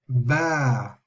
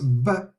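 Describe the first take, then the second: First: The vowel is lengthened. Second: The vowel is short. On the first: The letter is followed by a lengthening letter. "but it will be pronounced ba" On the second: The letter carries only a short vowel mark. "not be pronounced ba like with the just a fatha"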